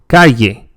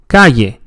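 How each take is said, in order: First: The double L sounds like a y. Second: The double L sounds like a y.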